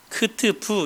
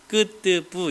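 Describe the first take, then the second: First: The consonants are aspirated with a puff of air. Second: The consonants are tense with no puff of air. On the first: The speaker calls it wrong. "이게 아니라" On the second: The speaker calls it right. "경음이죠"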